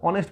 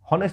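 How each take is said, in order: First: The word begins directly with a vowel sound. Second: The word begins with an audible h sound. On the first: The speaker calls it right. "অনেস্ট বলি" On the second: The speaker calls it wrong. "হনেস্ট বলি না আমরা"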